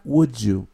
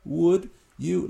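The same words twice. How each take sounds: First: "would you" run together as "wood-joo"; linked with j sound. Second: "Would you" slowly, as two separate words, silent L; words kept apart. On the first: Teacher showing how the words link, "would you" as "wood-joo". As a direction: join "would you" with a little English j between. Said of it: "como una pequeña jotita en inglés". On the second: Teacher breaking down a phrase for learners, "Would you" unlinked. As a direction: say "Would", then a clean "you", unjoined. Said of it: "cuando would va con you". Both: Shown as a demonstration.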